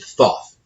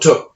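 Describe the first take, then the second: First: The name begins with a TH sound. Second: The name begins with a plain T sound. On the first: The speaker calls it wrong. "he pronounced it Thoth" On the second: The speaker calls it right. "the T H sound, is a T sound"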